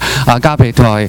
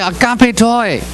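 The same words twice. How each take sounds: First: It is said at the lowest pitch. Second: It is said at the highest pitch. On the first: "越讲声调越高" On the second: "越讲声调越高"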